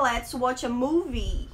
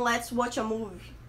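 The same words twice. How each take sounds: First: Slow phrase, "movie" with a full final "ee"; correct MOVIE. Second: Slow phrase, "movie" ending like "move"; mispronounced MOVIE. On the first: Teacher modelling correct pronunciation, "movie" as MOO-vee. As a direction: sound both syllables of "movie", MOO-vee. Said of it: "A pronúncia correta dessa palavra". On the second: Teacher showing a common error, "movie" said like "move". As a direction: swallow the last vowel of "movie", like "move". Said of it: "muitos brasileiros falam". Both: Shown as a demonstration.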